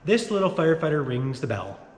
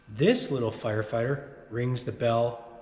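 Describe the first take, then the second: First: It is said quickly. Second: It is said slowly.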